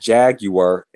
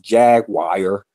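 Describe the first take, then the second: First: It is said with a British pronunciation. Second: It is said with an American pronunciation. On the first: The speaker calls it right. "It's Jaguar" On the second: The speaker calls it wrong. "over here we pronounce Jaguar"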